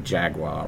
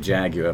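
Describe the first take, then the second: First: It is said with an American pronunciation. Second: It is said with a British pronunciation. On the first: This is how the listener's country says it. "but you say Jaguar" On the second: This is how the speaker's own country says it. "We say Jaguar"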